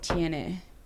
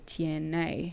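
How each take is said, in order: First: The E vowel has the standard Spanish sound. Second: The E vowel has an American English sound. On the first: The speaker calls it right. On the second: The speaker calls it wrong.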